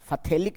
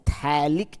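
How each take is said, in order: First: The word begins with an f sound. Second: The word begins with a t sound. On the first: The speaker calls it wrong. "फथेलिक नहीं पढ़ा जाता है इसको" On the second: The speaker calls it right. "इसको पढ़ा जाता है थैलिक acid"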